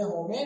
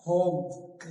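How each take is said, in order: First: होमे in two syllables, "ho-may"; wrong final e sounded. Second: होम in one syllable, "hohm"; silent final e. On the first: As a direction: misread होमे with an e voiced at the end. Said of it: "नहीं पढ़ना है". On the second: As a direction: end होम on the m. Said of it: "इसे होमे नहीं पढ़ना है". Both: Shown as a demonstration.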